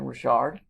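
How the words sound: The name is pronounced the French way.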